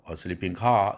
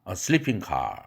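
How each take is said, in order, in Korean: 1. 강세는 car에 있고, sleeping에는 없습니다. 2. 강세는 sleeping에 있고, car에는 없습니다. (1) "이게 아니라" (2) "sleeping에 일강세가 가고 car는 삼강세로 떨어져 줍니다. 그래서 발음도 a sleeping car 이렇게 되죠"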